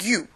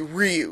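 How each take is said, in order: First: The name is said without any R sound. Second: The name is said with a clear R sound. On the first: "The R's in Japanese are not pronounced at all" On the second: "if you're going to Romanize it, you can say Ryu because we do pronounce R's"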